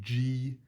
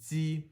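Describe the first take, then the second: First: It starts with a soft English j sound. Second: It starts with a tight, hissing dz-like sound. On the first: The speaker calls it wrong. "you're going to want to say G. That's not what it is" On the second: The speaker calls it right. "It's Z"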